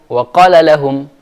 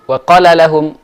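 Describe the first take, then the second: First: The vowel in qala is cut short. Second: The vowel in qala is cut short.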